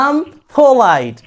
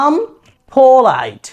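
First: I am is shortened into one syllable. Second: I am is shortened into one syllable.

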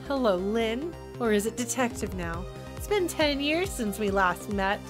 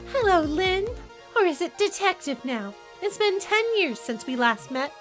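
First: It is said in the man's voice. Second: It is said in Camila's voice.

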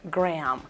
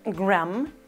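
First: The vowel is like the 'a' in 'cat'. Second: The vowel is an open Spanish-style 'a'. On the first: The speaker calls it right. "sino se pronuncia a, gram" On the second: The speaker calls it wrong. "No se pronuncia a, gram, con a"

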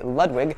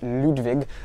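First: The name is said with an American pronunciation. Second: The name is said with a German pronunciation. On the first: "here in the States, we say Ludwig" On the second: "as the Germans would say it, it would be pronounced Ludwig"

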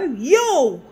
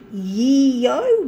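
First: The name is said like 'yo'. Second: The name is said like 'yee-oh'. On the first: The speaker calls it right. "it's Yo, like as in Y-O" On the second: The speaker calls it wrong. "I thought it was Yeo"

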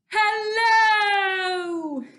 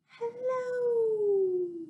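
First: It is said very loudly. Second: It is said very quietly.

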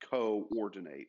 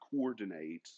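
First: The two O's are split into separate syllables. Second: The two O's merge into one vowel sound. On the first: The speaker calls it right. "it's coordinate, right? So you're breaking the syllable there" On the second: The speaker calls it wrong. "it's not"

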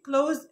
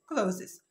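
First: It ends after a single z sound, one syllable. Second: It ends with an extra -es, two syllables. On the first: The speaker calls it right. "يبقى نطق الكلمه دي كلوز" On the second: The speaker calls it wrong. "مش كلوزز"

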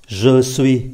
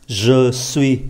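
The two takes are said the same way.

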